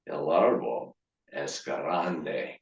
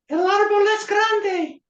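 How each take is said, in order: First: It is said in a slow, seductive voice. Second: It is said in a high-pitched voice. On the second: "I decided to say it in a high voice"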